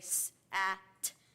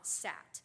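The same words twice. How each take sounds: First: The word is split into separate sound parts. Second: The word is said smoothly as one unit. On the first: The reader is still decoding the word sound by sound. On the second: The reader recognizes the word automatically.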